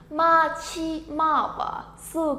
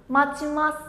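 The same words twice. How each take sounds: First: "Machimawasu" very slow, each syllable apart. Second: Said in the usual way. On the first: Shown as a demonstration. Teacher introducing word number six to learners, syllable by syllable. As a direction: stretch "Machimawasu" out sound by sound.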